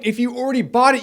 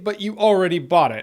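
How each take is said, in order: First: "bought" pushed up and higher; stress on bought. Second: "already" punched, falling after; stress on already. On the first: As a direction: lean on "bought" in "If you already bought it". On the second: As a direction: hit "already" in "but you already bought it". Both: Shown as a demonstration.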